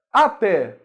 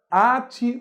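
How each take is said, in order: First: "Até" stressed on the final TÉ. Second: "Ate" stressed on the first A. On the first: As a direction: say "Até" as a-TÉ, open é. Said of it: "até sem acento". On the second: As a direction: say "Ate" as A-te, weak ending. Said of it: "sem o acento". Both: Shown as a demonstration.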